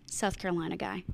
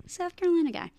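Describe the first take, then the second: First: Said in the usual way. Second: Playful attempt at a Southern accent; mock Southern accent. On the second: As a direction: tease it in a bad Southern accent. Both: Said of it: "I can't do a Southern accent".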